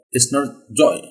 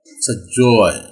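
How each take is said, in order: First: Joy with a short o and no glide; joy without the glide; wrong joy. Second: Joy with a long aw gliding to ee, slower; the right joy. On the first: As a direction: clip joy flat with no ee. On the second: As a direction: stretch joy from aw to ee. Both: Shown as a demonstration.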